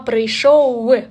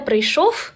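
First: The word ends with a w sound. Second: The word ends with an f sound. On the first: The speaker calls it right. "як англійський «w»" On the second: The speaker calls it wrong. "Ніколи не як «фи»"

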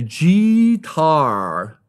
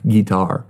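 First: The first syllable sounds like the letter G. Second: The first syllable is a short 'gih' sound. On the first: The speaker calls it wrong. "don't say G-tar" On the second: The speaker calls it right.

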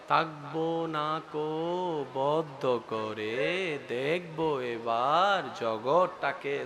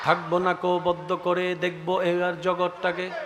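First: The line is recited in another poet's style. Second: The line is recited in its own usual style. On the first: "নজরুলের লেখাটাকে যদি রবীন্দ্রনাথের স্টাইলে পড়েন কেমন হবে?" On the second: "নজরুল সাহেবের রং আলাদা"

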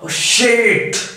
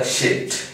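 First: It is said loudly and forcefully. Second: It is said softly and calmly.

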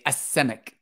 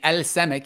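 First: The L merges into a doubled S sound. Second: The L sound is clearly pronounced before S. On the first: The speaker calls it right. "You say es semek" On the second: The speaker calls it wrong. "You don't say el semek"

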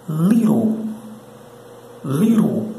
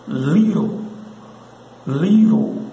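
The two takes are said the same way.

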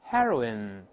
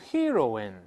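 First: The first vowel is a short 'eh' sound. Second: The first vowel sounds like the vowel in 'hero'. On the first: The speaker calls it right. "前面发e。" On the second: The speaker calls it wrong. "不要读heroin"

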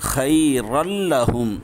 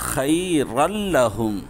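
Both takes have the same delivery.

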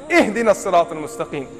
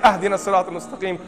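First: The first word begins with an 'i' vowel. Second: The first word begins with an 'a' vowel. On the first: The speaker calls it right. "Read it right" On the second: The speaker calls it wrong. "You better not say"

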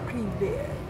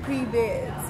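First: It is said in a put-on sexy voice. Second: It is said in a plain, normal voice.

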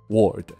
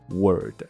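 First: The vowel sounds like 'or'. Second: The vowel sounds like 'er'. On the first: The speaker calls it wrong. "大家把word 念成了word" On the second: The speaker calls it right. "它的发音真的是word"

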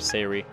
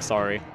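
First: It is said with a vowel that sounds like Siri. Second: It is said with the usual vowel of sorry. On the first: "I don't like sayri. It sounds like a really like country pronunciation of, like, Siri" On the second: "I just said it like sorry"

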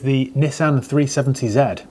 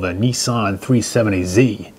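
First: The letter Z is said the British way. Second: The letter Z is said the American way.

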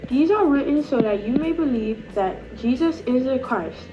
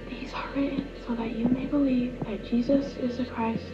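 First: It is said in an Australian accent. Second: It is said in a soft whisper. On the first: "we're going to do an Australian accent" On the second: "we are going to say a whisper"

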